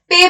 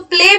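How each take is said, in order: First: The l sound is left out after p. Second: The l sound is clearly pronounced after p. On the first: The speaker calls it wrong. "पे बोलता है वो प्ले को" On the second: The speaker calls it right. "प्ले में एल एल जो है उसको छोड़ देता है"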